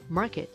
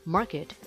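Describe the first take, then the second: No difference in how they are said.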